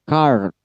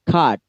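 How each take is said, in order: First: A clearly sounded r comes before the d. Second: The vowel runs straight into d with no r. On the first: "Dalam American R-nya dibaca jelas" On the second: "Kalau British card"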